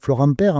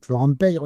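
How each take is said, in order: First: The surname is said without a y sound. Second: The surname is said with a y sound. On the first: This is how people say it in Bordeaux or Paris. The speaker calls it wrong. "on va dire Florent Père" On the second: This is how it is said in Gascony, where every letter is pronounced. The speaker calls it right. "mais c'est Florent Père normalement. En Gascogne, on prononce le Y"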